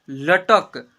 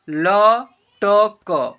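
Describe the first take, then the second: First: Said in the usual way. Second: "लटक" very slow as ल, ट, क, loud long vowels; letter by letter. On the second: Shown as a demonstration. Teacher sounding out "लटक" for learners, letter by letter. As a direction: draw "लटक" out into three separate syllables. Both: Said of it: "ऐसे पढ़ेंगे".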